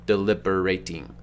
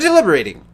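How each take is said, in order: First: The word is said slowly, each syllable deliberately marked. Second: The word is said at a normal, unmarked pace.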